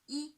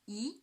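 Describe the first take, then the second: First: The pitch stays high and level, held long. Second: The pitch rises from middle to high. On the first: "First tone on the five. On the five, high pitch, naturally prolonged" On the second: "the second tone. From three to five"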